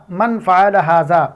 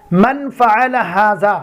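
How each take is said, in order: First: Said in the usual way. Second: Slow, careful Arabic. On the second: Shown as a demonstration. Teacher models the Arabic question for learners, slowly. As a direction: spell out من فعل ھذا word by word, slowly. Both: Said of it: "اور اس طرح بولتے ہیں".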